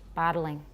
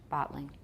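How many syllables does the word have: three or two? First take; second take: three; two. First: The word is said with three syllables. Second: The word is said with two syllables. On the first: "I have three" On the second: "That's two"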